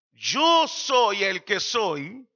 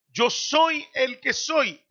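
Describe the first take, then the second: First: Stretched out with weight on yo; very slow solemn declaration. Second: Drawn out, weighty and deliberate; slow solemn declaration. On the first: Preacher slowly voicing God's I am. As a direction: savour each word of the divine name. Counting first divine person. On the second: Preacher voicing the Old Testament God, slow. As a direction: lay each word down like a decree. Contrasts old and new revelation. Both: Acted.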